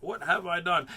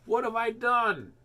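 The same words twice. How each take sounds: First: Said in the usual way. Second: High, loud, slow anguished cry; distraught cry. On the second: A narrator's reading. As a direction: cry out in guilt and fear. Toad panics, Frog vanished.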